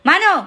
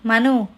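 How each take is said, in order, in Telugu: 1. ఆ పేరు గట్టిగా, పదునుగా అరుస్తారు. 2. ఆ పేరు ప్రశాంతంగా, మెల్లగా అంటారు. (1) "మను అనే టోన్ వరకు వాయిస్ వెళ్ళదు" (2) "మను ఇలా చెయ్యి అనే టోన్"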